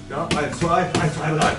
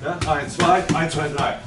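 Both takes have the same delivery.

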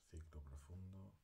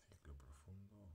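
Both takes have the same delivery.

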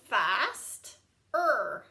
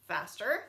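First: Fast-er split into two parts; Fast-er with a break; sounded out. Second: Said in the usual way. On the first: Shown as a demonstration. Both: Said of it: "Same with this one".

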